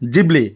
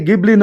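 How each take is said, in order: First: The word begins with a J sound. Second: The word begins with a hard G sound. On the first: The speaker calls it right. "Japanese প্ৰনাউন্সিয়েশ্যন জিবলি" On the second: The speaker calls it wrong. "আচলতে গিবলি নহয়"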